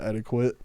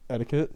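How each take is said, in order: First: "etiquette" said as "ETTY-kwit"; countrified "etiquette", ending in "kwit"; mispronounced etiquette. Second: Said in the usual way. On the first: Shown as a demonstration. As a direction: put a kw sound in "etiquette". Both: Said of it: "I guess you would call it".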